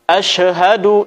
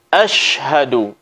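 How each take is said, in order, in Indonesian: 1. Konsonan sebelum h dilepaskan dengan pantulan. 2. Konsonan sebelum h ditahan tanpa pantulan. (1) "asyhadu ini tidak boleh" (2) "Yang benar adalah tanpa qalqalah"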